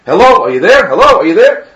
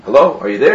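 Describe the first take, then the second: First: Louder, insistent phone check; calling out. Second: Said in the usual way. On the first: Acted. Groom to bride on a silent phone line, calling out. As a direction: raise your voice into a silent line.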